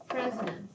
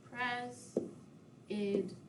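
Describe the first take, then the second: First: Said in the usual way. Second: "President" very softly split into three spaced syllables. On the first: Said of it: "see how many syllables". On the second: Shown as a demonstration. Teacher repeating the count, "President" softly broken into syllables. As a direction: quietly step through "President", pausing after each syllable. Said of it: "how many syllables we have".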